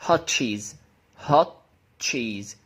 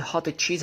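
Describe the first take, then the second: First: HOT without its own T, going into the CH of CHEESE; linked. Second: HOT with a released T before CHEESE; unlinked. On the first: Teacher showing how to say it, HOT CHEESE linked. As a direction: merge the end of HOT into CHEESE. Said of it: "هتقولها". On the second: Teacher showing the form before linking, HOT CHEESE with both sounds. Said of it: "ده بقى لما تيجي تقول". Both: Shown as a demonstration.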